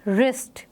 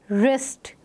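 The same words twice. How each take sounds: First: Teacher repeats wrist; silent w. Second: रिस्ट starting on r; teacher models wrist; silent w. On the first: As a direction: say रिस्ट starting with r. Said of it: "sound है वो आर से आ रही है". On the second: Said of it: "किस तरह से pronounce करेंगे". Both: Shown as a demonstration.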